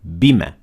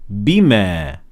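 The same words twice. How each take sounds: First: The final vowel is short, not extended. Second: The final vowel is held for two counts. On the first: "without any mad" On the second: "it contains a natural mad... extend it for two harakat"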